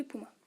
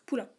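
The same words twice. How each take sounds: First: "poulains" mumbled, close to "poumas"; slurred poulains. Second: "Poulains" said cleanly as "pou-lin", nasal ending clear; careful correction. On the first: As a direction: let "poulains" slip out garbled. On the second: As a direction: restate "Poulains" slowly and correctly. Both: Shown as a demonstration.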